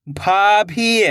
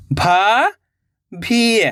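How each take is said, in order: First: Said in the usual way. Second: भाभी drawn out very slowly, each sound held. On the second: Shown as a demonstration. (भाभी को बहुत धीरे खींचकर बोलें) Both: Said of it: "तो मिलके बन जाएगा".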